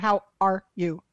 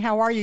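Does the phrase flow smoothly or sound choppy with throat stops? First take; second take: choppy; smooth. First: Each word is cut off by throat stops. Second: The words flow smoothly into each other. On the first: "when like you stop it in your throat" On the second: "instead of saying"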